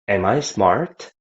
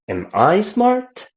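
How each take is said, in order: First: It sounds like quietly wondering to oneself. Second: It sounds like echoing back a heard question. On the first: The speaker is asking themself. "I'm thinking myself" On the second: The speaker repeats a question someone asked them. "So you're re-asking the question that you got"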